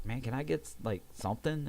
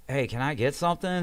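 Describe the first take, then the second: First: Said in the usual way. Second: Higher, firmer repeat request; reenacting a patient calling for attention; insistent calling out. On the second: Patient asking staff for pain relief after a refusal, insistent calling out.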